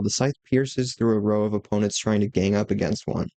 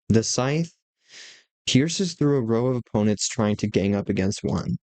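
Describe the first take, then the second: First: The sentence is read at a fast pace. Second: The sentence is read at a slower pace. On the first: "so I just read it fast" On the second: "so I'm going to go slower"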